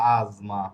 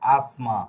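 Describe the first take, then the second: First: The consonant before m is a voiced z. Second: The consonant before m is a voiceless s. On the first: The speaker calls it right. "কিন্তু এটা হবে আজমা" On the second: The speaker calls it wrong. "Bangla উচ্চারণ করলে এটা হয়ে যাবে আসমা"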